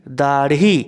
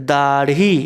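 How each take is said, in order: No difference in how they are said.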